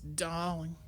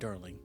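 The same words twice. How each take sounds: First: It is said in a put-on French accent. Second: It is said in the speaker's own accent.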